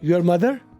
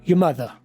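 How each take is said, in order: First: 'Your' is pronounced in full. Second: 'Your' is reduced to a short 'ya'.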